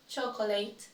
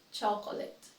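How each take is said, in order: First: "Chocolate" as CHO-ko-layt; "Chocolate" with a diphthong in the last syllable; mispronounced. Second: "chocolate" ending in a short let; "chocolate" with short final vowel; correct pronunciation. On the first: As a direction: say "Chocolate" ending like late. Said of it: "I will say each one incorrectly". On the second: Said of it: "then I'll say it correctly". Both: Shown as a demonstration.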